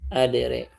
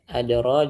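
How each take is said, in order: First: The final vowel is tilted toward an 'e' sound. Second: The final vowel is an open 'a' sound.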